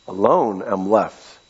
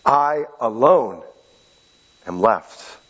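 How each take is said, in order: First: Said in the usual way. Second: Slow, hushed and lonely; forlorn. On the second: Shown as a demonstration. Preacher re-reads Elijah's lament, slow and forlorn. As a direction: let the loneliness sink in. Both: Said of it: "Let me say that again".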